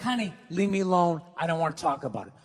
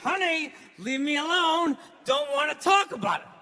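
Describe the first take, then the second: First: It is said in a relaxed voice. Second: It is said through clenched teeth.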